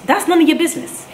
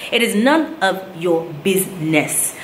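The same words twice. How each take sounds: First: High, sharp indignant retort; indignant outburst. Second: "It is none of your business" slowed, with weight on "none"; slow firm repeat. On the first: To the nosy passenger on the flight, indignant high outburst. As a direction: fire it back, stung. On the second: To the nosy passenger, slow and firm with "none" stressed. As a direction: lay down the line word by word. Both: Real, not acted.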